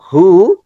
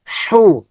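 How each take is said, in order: First: Said in the usual way. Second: "হু" with a dense h from the throat; h from inside. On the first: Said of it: "normal sound হচ্ছে". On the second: Shown as a demonstration. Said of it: "ভিতর থেকে". ("হু" গলার ভিতর থেকে)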